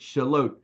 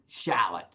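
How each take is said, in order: First: The last syllable ends with a long 'oat' sound. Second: The last syllable ends with a short 'ot' sound. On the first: The speaker calls it right. "oat, oat, oat, shallot" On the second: The speaker calls it wrong. "Most people want to pronounce it shallot or something like that"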